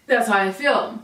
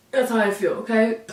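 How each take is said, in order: First: Said in the usual way. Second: Whisper. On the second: Real, not acted. Whispered aside.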